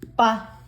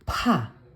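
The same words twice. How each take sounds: First: The consonant is tight and tense, with no air. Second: The consonant is released with a strong puff of air. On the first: "Kapag naka double consonant" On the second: "aspirated form o yung may hangin"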